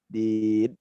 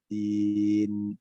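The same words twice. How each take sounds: First: The final n has no nasal hum. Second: The final n has a light nasal hum. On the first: The speaker calls it wrong. "itu tidak ada dengungnya" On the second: The speaker calls it right. "dia tetap harus ada uh, gunnahnya"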